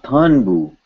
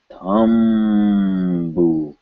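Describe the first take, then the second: First: "Thunbu" with an N before the bu, higher pitched; wrong N sound. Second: "Thumbu" very slowly, holding a long humming M; drawn-out M. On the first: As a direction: say "Thunbu" with tongue-tip N in place of M. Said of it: "This is not Thunbu". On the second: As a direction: stretch the m of "Thumbu" on closed lips. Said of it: "It has to be M". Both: Shown as a demonstration.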